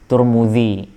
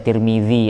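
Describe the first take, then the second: First: The first vowel is u, the second u. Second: The first vowel is i, the second i. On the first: "ada yang baca Turmudzi" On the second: "Ada yang baca Tirmidzi"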